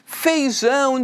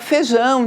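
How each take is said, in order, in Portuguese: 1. A primeira sílaba mantém o ditongo 'ei' completo. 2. A primeira sílaba perde o 'i', falando 'fe'.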